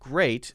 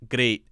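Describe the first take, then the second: First: Great is said with a plain r and ay vowel. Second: Great is said with a tapped r and ee vowel. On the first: "Instead of great" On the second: "in this accent it would sound something like great"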